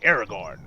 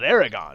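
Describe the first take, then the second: First: The r in the second syllable is pronounced. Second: The r in the second syllable is silent. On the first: "you're supposed to say Aragorn" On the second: "I always called it Aragon"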